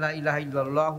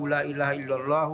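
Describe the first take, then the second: No difference in how they are said.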